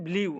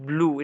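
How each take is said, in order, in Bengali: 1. স্বরটি ee থেকে oo-তে গড়িয়ে যায়। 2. স্বরটি একটি সরল oo ধ্বনি। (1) "ব্লিউ না" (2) "এটা হচ্ছে ব্লু"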